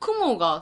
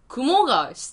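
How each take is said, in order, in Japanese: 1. 「kumo」は'cloud'のピッチアクセントです。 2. 「kumo」は'spider'のピッチアクセントです。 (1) "雲が空やん。" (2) "雲があれやん。"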